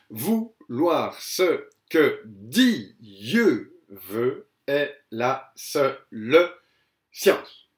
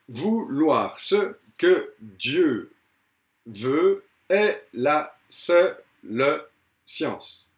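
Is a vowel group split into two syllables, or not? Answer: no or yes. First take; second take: yes; no. First: One vowel group is split into two syllables. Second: Each vowel group is said as one syllable. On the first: The speaker calls it right. "j'ai fait une diérèse" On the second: The speaker calls it wrong. "il n'y a que onze pieds"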